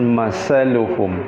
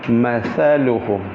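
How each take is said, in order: First: The middle consonant is an 's' sound. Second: The middle consonant is a 'th' sound. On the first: The speaker calls it wrong. "bukan masaluhum" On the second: The speaker calls it right. "Mathaluhum, ... ujung lidah berada di ujung gigi sebelah atas"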